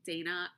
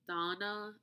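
First: The name has a flat American pronunciation. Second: The name has a non-American pronunciation. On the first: The speaker calls it wrong. "I pronounce her name Dana... my flat American accent" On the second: The speaker calls it right. "I think it's actually supposed to be like Donna"

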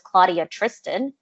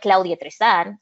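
First: The name is said with English pronunciation. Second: The name is said with Spanish pronunciation. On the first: This is an anglicized version of the name. The speaker calls it wrong. "because that's not my name" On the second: This is the name the parents gave. The speaker calls it right. "I always say I'm Claudia Tristan"

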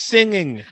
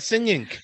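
First: The word ends with a plain ng sound. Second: The word ends with an added hard k sound. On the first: The speaker calls it right. "It's singing" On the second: The speaker calls it wrong. "it's not singing"

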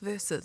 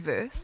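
First: The word is said as two syllables. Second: The word is said as one syllable. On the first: The speaker calls it right. "it's versus" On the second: The speaker calls it wrong. "it just gets me when people say verse"

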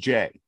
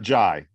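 First: The vowel rhymes with 'day'. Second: The vowel rhymes with 'high'. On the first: The speaker calls it right. "It's actually just Jay" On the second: The speaker calls it wrong. "It's not Jai"

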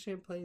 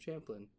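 First: The name begins with a soft sh sound. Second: The name begins with a hard ch sound. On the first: It is said the French way. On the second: It is said the English way.

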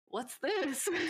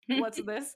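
First: It is said in a cheerful, delighted tone. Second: It is said in a grumpy, unimpressed tone. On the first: The speaker is pleasantly surprised by the song. "Different tone of voice, right?" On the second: The speaker is skeptical of the new song. "in my grumpy girl era"

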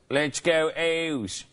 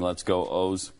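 First: It is said in a Baltimore accent. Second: It is said in a plain accent.

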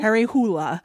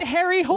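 First: The surname has two syllables, ending in 'la'. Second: The surname is one syllable, like English 'hole'. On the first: This is how it is said in Norway. The speaker calls it right. "pronounces the name the way you would in Norway, which is something like Harry Hula" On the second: This is how it is said in the movie. The speaker calls it wrong. "They say it over and over again"

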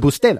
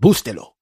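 First: The stress is on the middle syllable. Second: The stress is not on the middle syllable. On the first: The speaker calls it right. "it would be on the middle" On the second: The speaker calls it wrong. "a lot of times I've said"

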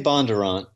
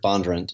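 First: The last syllable is said fully. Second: The last syllable is clipped and said quickly. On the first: This is the northern Virginia way of saying it. "You say Bondurant" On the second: This is how people in Franklin County say it. "They sort of they allied the last little quicker"

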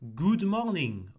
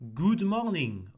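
First: The vowel in 'good' is long. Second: The vowel in 'good' is long.

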